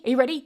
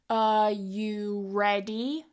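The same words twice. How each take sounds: First: The phrase is said extremely fast. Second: The phrase is said slowly and carefully. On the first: "saying it quickly like that is just completely useless" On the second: "start slowly"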